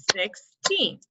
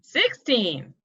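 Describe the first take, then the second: First: Put-on "Sixteen" split, SIX, pause, TEEN; clapped-out syllables. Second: Said in the usual way. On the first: Shown as a demonstration. Teacher counting syllables for students, "Sixteen" broken in two. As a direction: say "Sixteen" as two separate beats. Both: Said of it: "How many do we think it has?".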